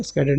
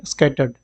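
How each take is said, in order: First: "स्कैटर्ड" misread as "skader"; wrong pronunciation. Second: "स्कैटर्ड" with a clear t, "skatterd"; correct pronunciation. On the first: Teacher rejecting a slip, "स्कैटर्ड" mispronounced as "skader". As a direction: say "स्कैटर्ड" softly with a d sound, "skader". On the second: Teacher correcting the slip, "स्कैटर्ड" said as "skatterd". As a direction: say "स्कैटर्ड" softly, ending in "-terd". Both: Shown as a demonstration. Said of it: "स्कैटर्ड नहीं".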